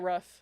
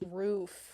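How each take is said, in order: First: The vowel is short, like a dog's 'ruff'. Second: The vowel is long, as in 'boot'. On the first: This is the speaker's own regional way of saying it. "But I say rough. They're like, you sound like a dog" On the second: This is the way others say it. "But no, it's roof"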